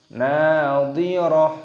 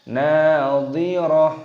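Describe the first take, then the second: No difference in how they are said.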